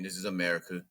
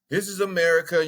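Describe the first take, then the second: First: Low and quiet. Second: Louder emphatic. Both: Real, not acted. Said twice, low then loud.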